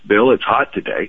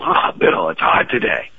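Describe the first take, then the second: First: It is said in a neutral, matter-of-fact tone. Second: It is said in a complaining, energetic tone.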